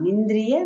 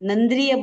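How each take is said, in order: First: The first syllable is said with an 'i' vowel. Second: The first syllable is said with a short 'a'. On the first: The speaker calls it right. "हाँ, निंद्रिय निमित्तम।" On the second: The speaker calls it wrong. "वो न नहीं है, वो नी है।"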